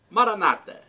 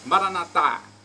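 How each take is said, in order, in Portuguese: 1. A tônica cai na penúltima sílaba. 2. A tônica cai na última sílaba. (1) "os protestantes, dizem" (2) "É como nós pronunciamos, nós católicos"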